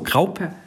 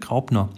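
First: The name is said without an n sound. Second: The name is said with an n sound. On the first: The speaker calls it right. "Grauper ohne N" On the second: The speaker calls it wrong. "Ich dachte Graupner"

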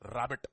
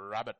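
First: The word has a heavy Telugu-influenced English accent. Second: The word has an American English accent. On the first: "But this is how I pronounce rabbit" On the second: "They say rabbit"

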